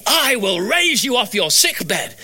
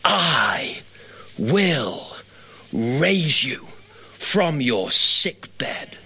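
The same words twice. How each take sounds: First: "I will raise you off your sick bed" high and drawn out with punch; emphatic, striking verse. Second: Low, word by word with long pauses; really slowly. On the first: Patient struck by the verse, "I will raise you" declared high and emphatic. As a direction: land "I will raise you" like a blow, pitched up. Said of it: "it was like it hit me". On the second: Verse returning to a fading patient, "I will raise you" very slow and low. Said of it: "but really slowly". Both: Retold or imitated.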